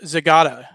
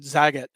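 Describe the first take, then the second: First: The name is said with three syllables. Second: The name is said with two syllables. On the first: The speaker calls it right. "it's Zagata" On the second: The speaker calls it wrong. "I said Zagat, and I apologize for that"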